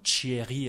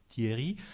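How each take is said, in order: First: The first consonant is palatalized, like ch. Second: The first consonant is a plain t. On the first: This is a regional French pronunciation. "de la palatalisation" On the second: This is the standard pronunciation. "à la place de Thierry"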